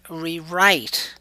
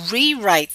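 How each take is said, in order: First: The prefix re is unstressed. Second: The prefix re is stressed. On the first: "prefixes and suffixes form separate syllables and are not typically stressed" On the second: "we might stress a prefix to emphasize a point"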